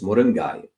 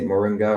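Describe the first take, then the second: First: It is said in a Tamil accent. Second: It is said in an American accent.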